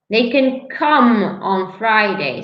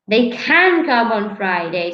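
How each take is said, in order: First: The stress is on the word come. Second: The stress is on the word can. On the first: It is about the action. "You're stressing the action" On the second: It is about the possibility. "the stress is on the of the possibility"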